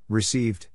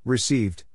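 No difference in how they are said.

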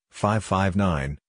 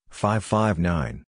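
Both takes have the same delivery.

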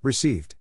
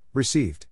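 No difference in how they are said.

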